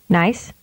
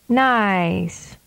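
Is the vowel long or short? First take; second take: short; long. First: The vowel is held briefly. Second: The vowel is prolonged. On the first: "with a short vowel duration first" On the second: "and then with a longer duration"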